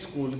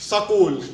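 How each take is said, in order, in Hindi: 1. यह बोलने वाले के सामान्य हिंदी लहजे में बोला गया है। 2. यह वैसे बोला गया है जैसे हरियाणा के लोग बोलते हैं। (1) "अपन कहते हैं स्कूल" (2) "आप हरियाणा चले जाओ, वो कहते हैं इसको स्कूल"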